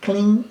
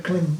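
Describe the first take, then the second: First: "Kling" with a ringing ng ending; ng pronunciation. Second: "kling" said with M in place of ng; M pronunciation. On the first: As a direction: end "Kling" on ng, not M. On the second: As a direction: close "kling" on the lips as M. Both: Shown as a demonstration. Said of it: "Kling instead of kling".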